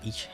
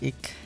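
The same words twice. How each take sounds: First: The word is said in standard German. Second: The word is said in a Berlin-style accent. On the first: "Like the rest of Germany says ich" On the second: "Is it like a Berlin accent thing to say ich?"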